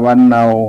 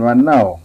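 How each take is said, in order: First: It is said with the standard Thai tone. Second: It is said with the Northern Thai tone. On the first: "เรียกว่าวันเนา" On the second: "ตามคนเมืองเขาจะออกเสียงเป็นวันเน่า"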